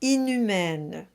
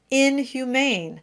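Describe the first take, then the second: First: Inhumaine flowing with no break, N going to U; smooth French. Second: Inhumane with a slight break between in and humane; English double emphasis. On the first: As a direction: inhumaine as one smooth word. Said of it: "pronounced exactly like". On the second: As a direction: say inhumane like two words, stressing both parts. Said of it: "have a double emphasis". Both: Shown as a demonstration.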